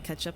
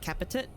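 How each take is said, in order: First: The word is pronounced the standard adult way. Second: The word is pronounced in a garbled childish way. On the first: "I wouldn't say ketchup" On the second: "I would say capitit"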